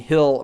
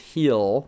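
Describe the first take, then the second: First: The vowel is short, like in 'hill'. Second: The vowel is long, like in 'heel'. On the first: The speaker calls it wrong. "People are telling me I'm saying Hill" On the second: The speaker calls it right. "versus Heal"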